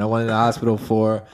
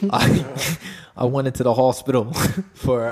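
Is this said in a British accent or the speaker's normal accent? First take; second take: normal; British. First: It is spoken in the speaker's normal accent. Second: It is spoken in a put-on British accent.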